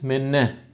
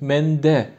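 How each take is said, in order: First: The middle is pronounced as a long double n. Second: The middle is pronounced as n followed by d. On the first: This is an assimilated dialect form. "şöyle de duyabilirsiniz. ... benzeşme olayı oluyor" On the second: This is the literary standard form. "Edebi dilde öyle olması gerekiyor"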